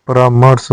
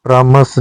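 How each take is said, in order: First: परामर्श with r sounded before sh; correct form. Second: परामर्श with the r before sh dropped; wrong form. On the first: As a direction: say paraa-mars for परामर्श. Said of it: "होता है". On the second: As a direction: say pramas for परामर्श. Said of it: "नहीं होता". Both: Shown as a demonstration.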